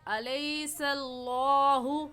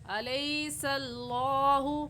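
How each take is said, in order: The two takes are said the same way.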